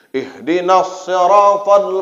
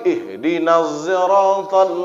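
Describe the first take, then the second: First: Siratal begins with an emphatic s sound. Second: Siratal begins with a z sound. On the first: "pakai shad" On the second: "Pakai zai"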